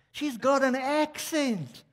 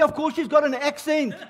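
First: High, very slow cooing delight; imitated gushing over something cute; gushing shop lady. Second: High-pitched exasperated retort; comic indignant comeback; mock indignation. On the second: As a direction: hit back high, as if it's blindingly obvious. Acted indignant retort to shop lady.

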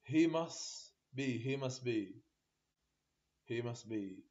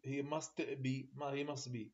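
First: "He must be" said as "he mus be", no t; t dropped. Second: "he must be" said slowly with a clear t in "must"; full t. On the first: Teacher showing class "must" without its t. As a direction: skip the t in "must". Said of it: "تي ماكو". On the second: Teacher giving "must" as students should not say it. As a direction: sound the t of "must" plainly. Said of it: "احنا ما نقول he must be". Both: Shown as a demonstration.

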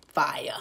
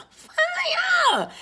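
First: Said in the usual way. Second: Very high, drawn-out shriek of FIRE; playful scream. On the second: Pretend. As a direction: squeal it out long and high. Playful scream of the card's word.

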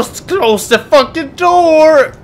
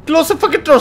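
First: Long yell, slower and stretched; slow drawn-out yell. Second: Loud high yell. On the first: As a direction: drag the yell out, leaning on door. Player yells it again, drawn out. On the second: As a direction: yell it at the door. Player yells at the game. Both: Real, not acted.

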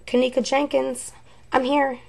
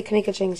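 First: Higher-pitched echo of the voice; imitating the recording. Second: Said in the usual way. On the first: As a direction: mimic the spirit box voice, higher. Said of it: "she says". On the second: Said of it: "I say".

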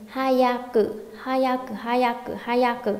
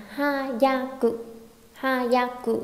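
First: "hayaku" run together, ya closed into "yak"; quick linked reading. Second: "hayaku" slow, in three open beats, ha-ya-ku; separate syllables. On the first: Teacher drills students on fast reading, sounds linked. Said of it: "chúng ta đọc nhanh thành". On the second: Teacher reads the three letters to students, syllable by syllable. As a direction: spell out "hayaku" slowly with ya left open. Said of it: "khi đọc chúng ta đọc nhanh thành". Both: Shown as a demonstration.

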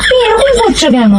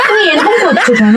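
First: Much higher, laughing it out; giggling exasperated repeat; high laughing plea. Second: Asked through a laugh; half-laughing, half-exasperated; laughing while begging an answer; laughing plea. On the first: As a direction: squeal the question through laughter. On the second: Coaxing partner, laughing exasperation. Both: Real, not acted.

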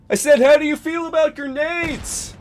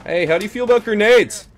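First: Very high, loud, straining yell; hammed-up hollered question; shouted repeat. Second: Loud, high, quick taunting question; raised-voice battle taunt; calling out. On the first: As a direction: repeat it as if they're hard of hearing. Repeating louder after "What?. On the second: Pretend. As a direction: holler it across to the enemy. Calling out to enemies in game.

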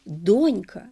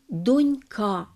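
First: Донька stressed on the О, дОнька; first-syllable stress. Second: Донька stressed on the ending, донькА; misplaced stress. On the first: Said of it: "наголос на першому складі". (правильний наголос: дОнька) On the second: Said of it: "яке наголошується". (помилковий наголос: донькА) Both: Shown as a demonstration.

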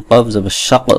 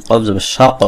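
No difference in how they are said.

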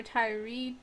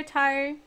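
First: Tyree with an added ee ending. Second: Tyre said as one syllable, tire. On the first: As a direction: say Tyree as tire plus ee. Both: Shown as a demonstration. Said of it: "Is it Tyre or Tyree?".

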